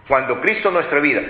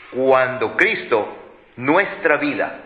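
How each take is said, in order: First: Said in the usual way. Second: Very slow, each word weighed; drawn-out verse read to the congregation; slow scripture reading. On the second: Shown as a demonstration. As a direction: read it out slowly so it sinks in.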